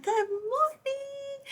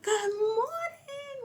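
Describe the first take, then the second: First: Drawn-out high good morning; a Sagittarius trainer greeting the room, loud and high; loud sing-song greeting. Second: Yelled greeting. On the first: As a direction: belt out a trainer's hello. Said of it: "she would be so loud". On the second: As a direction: call it across the gym. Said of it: "Like, yelling". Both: Retold or imitated.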